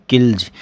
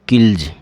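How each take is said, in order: First: The word ends with a voiced z sound. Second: The same.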